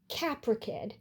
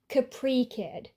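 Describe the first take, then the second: First: The first word ends with an uh sound. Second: The first word ends with an ee sound. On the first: The speaker calls it right. "he stresses the sounds differently and says it as Capra Kid" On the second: The speaker calls it wrong. "For a while, I pronounced it like Capri Kid"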